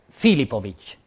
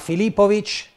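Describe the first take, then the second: First: The stress falls on the first syllable. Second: The stress falls on a later syllable. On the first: This is the Hungarian pronunciation of the name. "la pronuncia ungherese è" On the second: This is how the arena announcer says the name. "Lo speaker ti chiama Filipovic"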